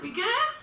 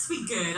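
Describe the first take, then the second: First: "We good?" leaping high at the end; high, rising "We good?"; checking question. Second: "We good." dropped low and falling; settled answer. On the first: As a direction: ask "We good?" with a big upward swing. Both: Real, not acted. Checks crowd, then answers herself.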